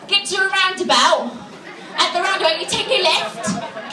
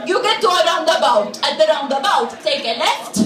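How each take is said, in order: First: Put-on higher-pitched chav accent; dragged-out chav English; British chav. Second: Put-on blunt Maltese-accented directions; heavy Maltese accent; Maltese English. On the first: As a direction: give directions like a British chav. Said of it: "a British chav would sound politer". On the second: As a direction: imitate a Maltese local struggling with English. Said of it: "a Maltese person who doesn't speak English very well".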